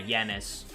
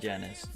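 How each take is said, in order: First: The name begins with a Y sound. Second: The name begins with a J sound. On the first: The speaker calls it right. "Yanis because it's uh in some languages the J's are counted as Y's" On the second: The speaker calls it wrong. "Not Janus"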